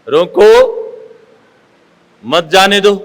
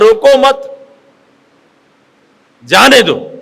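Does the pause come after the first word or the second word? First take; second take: first word; second word. First: The pause comes right after the first word. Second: The pause comes right after the second word. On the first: Stop the person; do not let them go. "मतलब रोक लेना है, जाने नहीं देना है" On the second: Do not stop the person; let them go. "बिल्कुल उल्टा हो जाता है"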